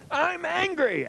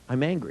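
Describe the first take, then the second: First: It is yelled loudly. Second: It is said quietly, without yelling.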